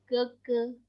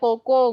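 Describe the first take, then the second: First: It is said with Mandarin pronunciation. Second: It is said the familiar Indonesian way. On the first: This is the standard Mandarin form. The speaker calls it right. "Kalau dalam bahasa Mandarin yang benar adalah Keke" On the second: This is the local nickname form. The speaker calls it wrong. "kalian ngenalnya Koko ngono ya"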